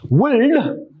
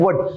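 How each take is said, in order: First: The letter L is pronounced in the word. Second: The L is silent, sounding like wood. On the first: The speaker calls it wrong. "we don't pronounce it as wood because we are not giving emphasizing or we are not stressing the letter L" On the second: The speaker calls it right. "We pronounce it as wood"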